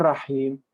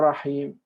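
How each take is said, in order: The two takes are said the same way.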